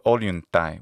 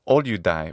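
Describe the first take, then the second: First: The middle consonants are an n plus t sound. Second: The middle consonant is a plain d sound. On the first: The speaker calls it right. "instead of olyuntai with a ta sound, with the ancient tau sound" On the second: The speaker calls it wrong. "he says olyudai"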